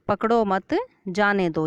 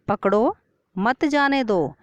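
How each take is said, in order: First: The pause comes after the word 'मत'. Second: The pause comes after the word 'पकड़ो'. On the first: Don't hold him, let him go. "इसमें बच्चे को बाहर जाने को कहा गया है" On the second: Hold him, don't let him go. "इस वाक्य में बच्चे को बाहर जाने से रोका गया है"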